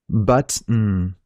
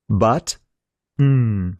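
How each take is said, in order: First: A shorter pause separates the two sounds. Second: A longer pause separates the two sounds.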